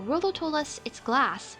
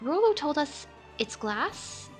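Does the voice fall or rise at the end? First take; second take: fall; rise. First: The voice falls at the end, like a statement. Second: The voice rises at the end, like a question. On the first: It is stated as a fact. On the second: It is asked as a question.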